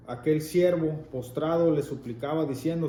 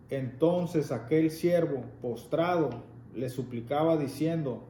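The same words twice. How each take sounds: First: Said in the usual way. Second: "aquel siervo postrado" read slowly with weight on "aquel"; slow down and lean on "aquel" so they notice; slow, deliberate reading. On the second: Shown as a demonstration. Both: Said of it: "fíjate bien lo que está diciendo".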